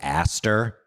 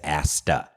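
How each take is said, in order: First: The name ends with an R sound. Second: The name ends without an R sound. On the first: This is how the name was misheard. The speaker calls it wrong. "I thought for the entirety of the movie, I thought the dog's name was Aster" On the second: This is the name's actual form. The speaker calls it right. "the dog's actual name is Asta. There is no R"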